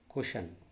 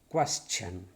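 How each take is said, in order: First: The middle consonant sounds like 'sh'. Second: The middle consonant sounds like 'ch'. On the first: The speaker calls it wrong. "Some people used to say this one as question" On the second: The speaker calls it right. "No, it is question. Question. Cha"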